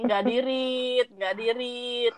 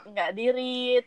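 First: Drawn out very slowly. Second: Said in the usual way. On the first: Retold or imitated. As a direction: stretch each word impatiently. Mimics her own impatient thought.

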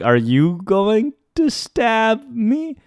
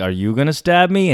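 First: High, very slow incredulous question; acted-out wary question, rising at the end; nervous disbelief. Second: Said in the usual way. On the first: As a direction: stretch each word upward in mock dread. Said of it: "I began to laugh". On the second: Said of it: "I responded with".

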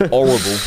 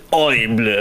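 First: "horrible" in a broad Nottingham accent, open 'or' sound. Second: "Horrible" said the French way, "oh-ree-bluh"; mock French "Horrible" with a rolled ending; French accent. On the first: Real, not acted. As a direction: say "horrible" the East Midlands way, louder. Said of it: "proper Nottingham accent coming out there". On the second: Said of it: "you can say it's French".

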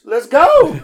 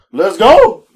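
First: Higher excited let's go. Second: Loud, rising cheer of GO; excited let's go. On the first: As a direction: GO way up high, loud and falling. Excited ride offer repeated. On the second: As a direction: jump at the fare with a loud cheer. Excited ride offer quoted. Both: Retold or imitated.

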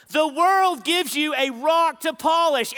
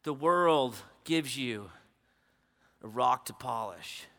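First: Loud, high, emphatic sermon line; preached loud. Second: Low, soft, slow intimate delivery. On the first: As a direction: hammer the line home to the crowd. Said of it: "repeated softly after". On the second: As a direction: lean in and say it gently. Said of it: "repeated after the loud take". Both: Acted.

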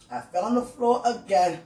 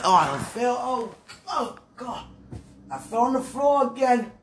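First: Said in the usual way. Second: Higher, lightly hammed-up cry of someone who fell; a light put-on voice of someone fallen and groaning; mock fallen lady. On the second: Shown as a demonstration. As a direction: whine it out like you just hit the floor. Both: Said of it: "See, when I talk like".

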